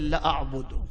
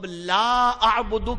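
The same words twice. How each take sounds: First: The vowel of la is cut short. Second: The vowel of la is held long. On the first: I will surely worship what you worship. The speaker calls it wrong. "अगर मद अदा नहीं करते और यूं ही पढ़ते हैं" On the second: I do not worship what you worship. The speaker calls it right. "ला अअबुदु की जगह पर"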